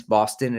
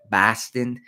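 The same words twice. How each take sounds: First: Said in the usual way. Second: Boston said "Bahston" in local accent; attempted Boston accent. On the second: Shown as a demonstration. Vlogger playfully repeats the city's name, hammy Boston accent. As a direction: try a broad Boston accent on "Boston". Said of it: "I'm not gonna do the accent".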